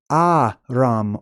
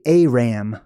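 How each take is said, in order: First: Aram with open ah vowels, AH-rahm; Aram pronounced ARR-ahm. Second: Aram with an air sound, AIR-am; Aram pronounced AIR-am. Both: Shown as a demonstration. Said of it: "or you could say Aram".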